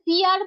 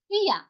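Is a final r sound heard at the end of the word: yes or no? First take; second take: yes; no. First: The word ends with an audible r sound. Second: The word ends without an r sound. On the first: The speaker calls it wrong. "এখানে ফিয়ার বলবো না আমরা।" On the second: The speaker calls it right. "উজ্জ মিন্স এটা উচ্চারিত হয় না।"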